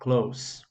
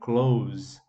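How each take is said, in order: First: The final consonant is a voiceless s sound. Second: The final consonant is a voiced z sound. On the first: It is the word meaning near. "ele tem um, um, um som de S mesmo" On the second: It is the verb meaning to shut. "a gente pronuncia esse S aqui eh, com som de Z"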